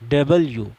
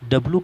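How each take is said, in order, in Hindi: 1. अक्षर का नाम 'blyu' की ग्लाइड आवाज़ पर खत्म होता है। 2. अक्षर का नाम सादे 'blu' की आवाज़ पर खत्म होता है।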